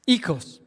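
It starts with an 'ee' sound, Greek style.

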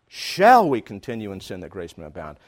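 The stress falls on the word 'shall'. It questions whether this should be done at all. "should I really be doing this?"

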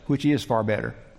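The voice falls at the end, like a statement.

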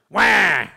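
A baby cry performed with attitude.

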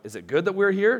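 It is said as a question.

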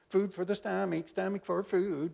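It is said in a whiny voice.

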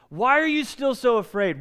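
The question sounds angry and scolding. Jesus is rebuking the disciples for their lack of faith. The speaker calls it wrong. "you're hearing anger in Jesus' voice, what you're hearing is this"

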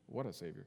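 It is said like a questioning phrase.

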